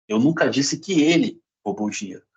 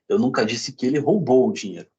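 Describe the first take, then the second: First: The stress falls on the word ele. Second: The stress falls on the word roubou. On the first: Someone else may have taken it. "Pode ter sido outra pessoa" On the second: It may have been borrowed instead. "Pode ter pego emprestado"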